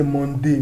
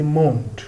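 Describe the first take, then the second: First: "Monday" in two syllables, mon-DAY; wrong French reading, "Monday" ending in an ay sound; mispronunciation demo. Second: "monde" as one syllable with silent e; teacher's model "monde", final e dropped; French pronunciation demo. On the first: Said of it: "We do not say Monday". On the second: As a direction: end "monde" on the d, no final vowel. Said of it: "we say monde". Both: Shown as a demonstration.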